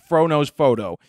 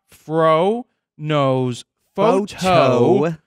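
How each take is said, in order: First: The first words are slurred together. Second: Each word is clearly pronounced separately. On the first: The speaker calls it wrong. "that's not right" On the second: The speaker calls it right. "enunciate or pronounce the word prop"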